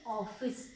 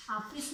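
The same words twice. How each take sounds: First: ऑफिस with a rounded in-between "aw", not aa or o; correct office. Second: ऑफिस said with a full aa, as "aafis"; the wrong way: ऑफिस with an open "aa"; wrong office. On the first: Teacher models for students: ऑफिस with an in-between "aw". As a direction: say ऑफिस as "awfis", mid between aa and o. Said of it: "पूरा ओ भी नहीं, पूरा आ भी नहीं". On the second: Teacher shows students the wrong way: ऑफिस with a full aa. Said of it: "आ भी नहीं, ओ भी नहीं". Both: Shown as a demonstration.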